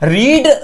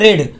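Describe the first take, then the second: First: The vowel is long, like in 'reed'. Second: The vowel is short, like in 'red'. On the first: It is the present form of the verb. "जो रीड के रीड होती है हमारी first form में" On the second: It is the past form of the verb. "रेड और रेड इसका उच्चारण होता है आके रेड रेड"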